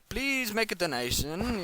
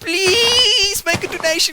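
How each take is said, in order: First: It is said in a casual, relaxed tone. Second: It is said in a pleading, begging tone. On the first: It is a relaxed, optional request. The speaker calls it right. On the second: The speaker desperately needs the money. The speaker calls it wrong.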